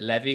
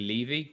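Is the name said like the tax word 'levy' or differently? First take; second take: like tax; different. First: It is said like the tax word levy. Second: It is said unlike the tax word levy. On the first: This is how most people say the name. The speaker calls it wrong. "Normally people pronounce it levy, like a tax levy" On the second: This is how the family says the name. The speaker calls it right. "it's actually levy"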